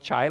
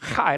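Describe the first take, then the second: First: It starts with a plain English ch sound. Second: It starts with a rough rasp in the throat. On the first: "which you call it chai, like chai tea" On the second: "If you pronounce it in Hebrew, it's chai, like chai, with a hairball in your throat"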